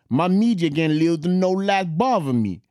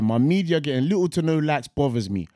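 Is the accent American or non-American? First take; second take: American; non-American. First: It is read in an American accent. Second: It is read in a non-American accent.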